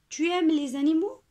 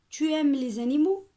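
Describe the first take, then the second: Both takes have the same delivery.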